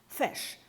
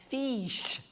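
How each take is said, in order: First: The vowel is said with a short sound. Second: The vowel is said with a long sound. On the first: The speaker calls it right. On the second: The speaker calls it wrong.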